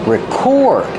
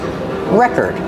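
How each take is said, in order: First: The stress is on the second syllable. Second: The stress is on the first syllable. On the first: It names an action, the verb. "We move the stress to the second syllable" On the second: It names a thing, the noun. "We use the same pronunciation as the records"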